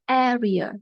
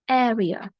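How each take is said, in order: First: The stress is on the first syllable. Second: The same.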